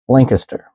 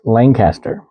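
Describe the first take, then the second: First: It is said the Pennsylvania way, syllables running together. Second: It is said the California way, syllables kept distinct. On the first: "especially in that area, it is pronounced Lancaster" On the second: "in California ... it's pronounced Lancaster"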